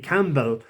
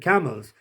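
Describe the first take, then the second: First: It is said with a clear 'p' sound. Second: It is said with no 'p' sound. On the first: "Now that would be spelt C A M P B E L L" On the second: "but Paddy pronounced it camels"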